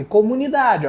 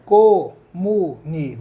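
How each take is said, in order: First: Said in the usual way. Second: "comunidade" spoken slowly, stress on "da"; slow syllable split. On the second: Shown as a demonstration. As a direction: stretch out "comunidade" to show the stress. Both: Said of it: "paroxítona".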